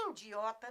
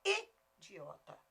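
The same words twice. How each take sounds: First: IDIOTA with a nasal first vowel, "indiota"; mistaken nasal pronunciation. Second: IDIOTA slowly with a pure I, "i-di-O-ta"; correct oral vowel. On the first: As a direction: say IDIOTA as if it began with IN. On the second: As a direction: separate a clean, non-nasal I at the start of IDIOTA. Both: Shown as a demonstration. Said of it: "Idiota não".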